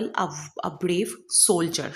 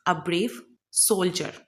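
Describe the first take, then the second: First: A brave soldier, each word drawn out very slowly; slow spelled-out example. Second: Said in the usual way. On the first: Shown as a demonstration. ("a brave soldier" बहुत धीरे-धीरे, एक-एक शब्द) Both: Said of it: "for example".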